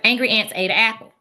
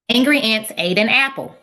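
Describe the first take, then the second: First: It is said fast. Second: It is said at normal speed.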